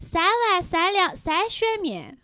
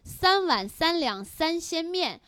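First: It is said in a nasal Chengdu accent. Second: It is said in standard Mandarin.

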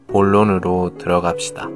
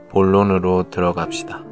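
Both takes have the same delivery.

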